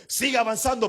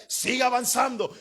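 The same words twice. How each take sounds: First: Said in the usual way. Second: Siga avanzando called out as a rallying cry; preacher urging the congregation on; urging shout. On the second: Real, not acted. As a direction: push them forward with a shout.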